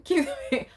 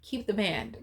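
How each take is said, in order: First: Higher and louder, laughing through the words. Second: Said in the usual way. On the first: Real, not acted. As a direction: chuckle out the repeat. Repeats her own punchline.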